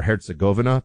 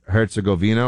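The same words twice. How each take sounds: First: Herzegovina with the stress on GO, said "-GO-vi-na"; alternative pronunciation. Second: Herzegovina with the stress on VI, said "-go-VEE-na"; alternative pronunciation. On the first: Host offers the other way people say it, Herzegovina as "-GO-vina". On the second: Host offers one of two ways people say it, Herzegovina as "-VEE-na". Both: Shown as a demonstration. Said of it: "people say it both ways".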